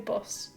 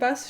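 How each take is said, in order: First: The vowel imitates a friend's different accent. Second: The vowel sounds in the speaker's usual accent. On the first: "she'll say bus" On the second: "instead of saying bus"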